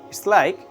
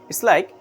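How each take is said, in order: Both takes have the same delivery.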